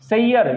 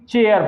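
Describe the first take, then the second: First: The word begins with an s sound. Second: The word begins with a ch sound.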